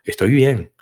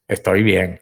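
First: It sounds warm and friendly. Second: It sounds dry and curt.

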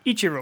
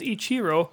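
First: The stress is on the first syllable. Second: The stress is not on the first syllable. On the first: This is how it is said in the United States. "We put the accent on the first syllable" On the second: This is how it is said in Japanese. "the proper Japanese pronunciation is Ichiro"

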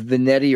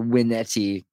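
First: The word begins with a V sound. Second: The word begins with a W sound.

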